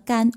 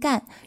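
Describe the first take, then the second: First: The syllable is said with a high level tone. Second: The syllable is said with a falling tone. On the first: The speaker calls it right. "而是一声的干" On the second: The speaker calls it wrong. "人家的这个姓氏啊不是四声的"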